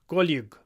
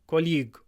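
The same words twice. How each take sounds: No difference in how they are said.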